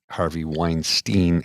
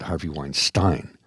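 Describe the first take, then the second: First: The name is said the North American way. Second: The name is said the European way. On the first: The speaker calls it right. "in the United States of America, ... it's pronounced Epstein, much like Harvey Weinstein" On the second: The speaker calls it wrong. "and not Harvey Weinstein"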